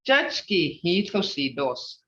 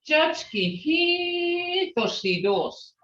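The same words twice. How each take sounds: First: Hitoshi is said plainly, without extra emphasis. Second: Hitoshi is said with strong emphasis. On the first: The mother is pretty. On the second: The mother is beautiful.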